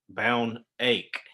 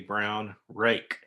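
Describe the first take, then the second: First: The R sounds are left out. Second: The R sounds are pronounced. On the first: "leaves the R or the R sound out" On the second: "when he's asking for a brown rake"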